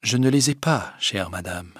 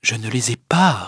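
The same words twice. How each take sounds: First: Soft, composed refusal; cool, quiet composure; very calm. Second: Composed, unmoved answer; still calm. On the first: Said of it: "il dit d'un air très calme". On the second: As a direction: answer evenly, without raising the voice. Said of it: "répondit Rodolphe toujours avec calme". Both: A narrator's reading.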